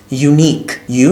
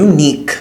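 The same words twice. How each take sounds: First: Unique drawn out slowly, yoo-neek; slow model of Unique; slow pronunciation. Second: Said in the usual way. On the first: Shown as a demonstration. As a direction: stretch Unique for the learners. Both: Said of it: "এটার প্রনাউন্সিয়েশনটা".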